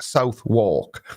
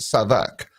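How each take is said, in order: First: It is said as two clear words, South walk. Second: It is said quickly, run together as one word. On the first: This is how the spelling reads. "that spelled Southwark" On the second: This is how local people say it. "why do Londoners pronounce it Southwark"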